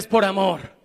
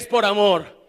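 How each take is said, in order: First: It is said a bit louder still. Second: It is shouted at full volume.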